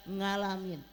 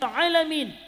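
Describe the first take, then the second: First: It starts with an 'ng' sound, Javanese accent. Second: It starts with a plain vowel, standard accent. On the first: "orang Jawa bilang ngalamin" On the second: "ustazahnya bilang"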